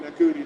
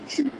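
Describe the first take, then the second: First: The name begins with an n sound. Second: The name begins with a sh sound. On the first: The speaker calls it wrong. "I was going like Nakuti" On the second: The speaker calls it right. "everybody says pronounce it shooty"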